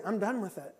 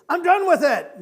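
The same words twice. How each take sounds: First: Said in the usual way. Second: High-pitched, full-force shout; emphatic shout. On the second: Acted. Preacher voicing what we don't say, emphatic shout. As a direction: burst out as a defiant declaration. Voicing refusal the congregation never makes.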